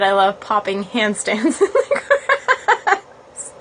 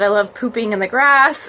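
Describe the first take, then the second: First: Laughing through the corrected words; giggling as the right words come out; corrected reading, laughing. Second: Said in the usual way. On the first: Retold or imitated. Reading the viewer's comment aloud, laughing. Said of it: "I realized you said". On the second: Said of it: "I thought it said".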